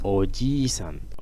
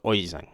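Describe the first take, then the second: First: The vowel after j is held long. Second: The vowel after j is cut short. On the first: The speaker calls it right. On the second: The speaker calls it wrong.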